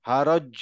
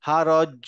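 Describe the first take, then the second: The two takes are said the same way.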